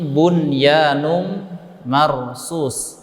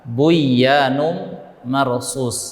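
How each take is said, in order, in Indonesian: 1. Bunyi n dibaca jelas sebelum y. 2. Bunyi n menyatu dengan bunyi y setelahnya. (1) "ka'annahum bunyanum marsus" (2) "bukan dibaca dengan buyanum marsus"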